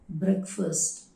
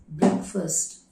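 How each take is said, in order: The two takes are said the same way.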